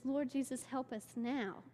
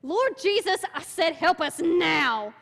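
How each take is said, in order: First: Imitating a calm prayer; quiet prayer. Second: Much higher, much louder, slow demanding plea; imitating a shouted, angry prayer. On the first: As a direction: pray it gently, unhurried. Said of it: "she just kind of prays it". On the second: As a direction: order Jesus to help, furious. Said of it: "she gets mad 'cause he's still choking".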